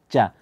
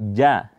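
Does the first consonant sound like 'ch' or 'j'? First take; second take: ch; j. First: The consonant sounds like a voiceless 'ch'. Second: The consonant sounds like a voiced 'j'. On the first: The speaker calls it wrong. "terbaca seperti huruf C" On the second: The speaker calls it right. "Tapi dia bukan ca, tapi ja"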